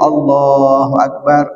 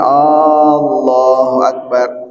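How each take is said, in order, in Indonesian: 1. Vokal pertama Allah dibaca pendek. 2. Vokal pertama Allah dibaca panjang. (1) "hamzahnya dipendekin" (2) "hamzahnya dipanjangin"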